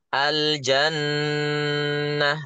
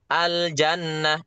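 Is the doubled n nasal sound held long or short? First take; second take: long; short. First: The doubled n nasal sound is held long. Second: The doubled n nasal sound is kept short. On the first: The speaker calls it right. "itu namanya memanjangkan gunah itu" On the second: The speaker calls it wrong. "itu berarti belum dipanjangkan gunahnya"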